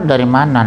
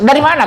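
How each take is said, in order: First: It is said in a soft, gentle tone. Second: It is said in a harsh, scolding tone. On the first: The mother is lovingly concerned for the child. The speaker calls it right. "kalau ibu lembut" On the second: The mother is scolding the child. The speaker calls it wrong. "kalau ibu kasar"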